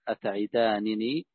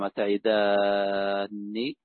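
First: The two n sounds are said separately. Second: The two n sounds merge into one long n.

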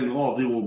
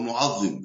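First: The ẓ is followed by an i vowel. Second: The ẓ is followed by a vowel other than i.

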